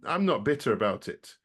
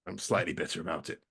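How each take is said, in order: First: Said in the usual way. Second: Lower, softer, a mock-sulky confession; grudging admission. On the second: Shown as a demonstration. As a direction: own up to it under your breath, half joking.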